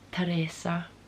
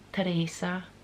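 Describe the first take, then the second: The two takes are said the same way.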